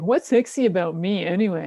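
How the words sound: It is asked in a judgy, dismissive tone.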